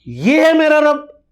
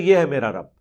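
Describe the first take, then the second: First: It is said as a questioning remark. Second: It is said as a plain statement.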